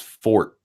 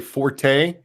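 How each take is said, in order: First: The word is said with one syllable. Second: The word is said with two syllables. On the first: The speaker calls it right. "It's fort" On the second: The speaker calls it wrong. "it's not the word you're supposed to be using"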